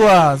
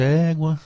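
First: It is said in a happy tone. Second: It is said in a sad tone.

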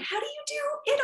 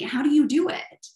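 First: It is said in a high-pitched put-on voice. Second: It is said in a normal speaking voice. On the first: The speaker calls it wrong. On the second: The speaker calls it right.

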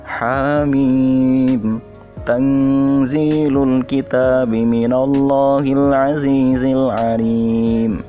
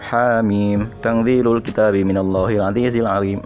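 First: It is recited slowly. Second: It is recited fast.

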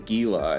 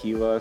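First: The word is pronounced with English letter sounds. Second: The word is pronounced with Spanish letter sounds. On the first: The speaker is not from the area. The speaker calls it wrong. "they come to Phoenix and they say Gila" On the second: The speaker grew up locally. The speaker calls it right. "you would pronounce it that way in Spanish"

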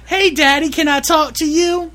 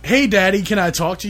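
First: It is said in a put-on girl voice. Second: It is said in his normal voice.

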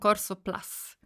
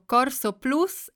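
First: The vowel is a short English 'uh' sound. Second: The vowel is a rounded Italian 'oo' sound. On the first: The speaker calls it wrong. "e non Corso Plus" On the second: The speaker calls it right. "Ho detto Corso Plus"

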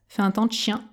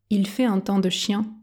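First: It is spoken quickly with sounds dropped. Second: It is spoken at a normal pace. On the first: "version express" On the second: "Version normale"

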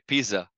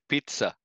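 First: The middle consonant is a buzzing z sound. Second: The middle consonant is a sharp ts sound. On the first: The speaker calls it wrong. "we don't say pizza" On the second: The speaker calls it right. "we say pizza"

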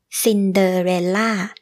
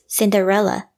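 First: The final syllable is stressed with a falling tone. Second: The final syllable is not stressed.

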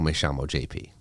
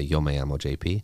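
First: It has an Argentinian accent, with 'll' said as 'sh'. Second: It is spoken in a Mexican Spanish accent. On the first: "in Argentina, it would be, ... the double L's and the Y's are pronounced as S-H's" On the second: "in Mexico, I would say"

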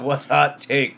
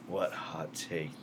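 First: It is said in an ordinary speaking voice. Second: It is said in a put-on sultry voice.

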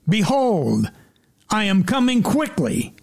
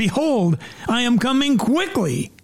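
First: It is said calmly, without extra force. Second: It is said loudly with great energy.

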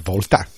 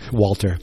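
First: The name is said in a German accent. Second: The name is said in a plain English accent.

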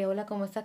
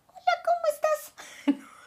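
First: It is said in her normal voice. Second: It is said in a strange, odd voice.

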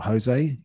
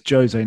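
First: The name is pronounced the Spanish way. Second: The name is pronounced the Portuguese way. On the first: The speaker calls it wrong. "not Jose. ... not Spanish" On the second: The speaker calls it right. "it's Jose, ... he's Portuguese"

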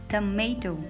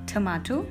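First: It is said with an American pronunciation. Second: It is said with a British pronunciation. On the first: "in American pronunciation, we call it tomato" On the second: "In British pronunciation, we call it tomato"

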